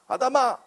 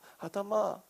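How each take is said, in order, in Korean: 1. 거칠고 날카로운 어조로 부른다. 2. 슬프고 다정한 어조로 부른다. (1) "아주 거친 성격의 사람들은 이렇게 읽는다고요" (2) "안타까움이 담긴 말투로 얘기하죠"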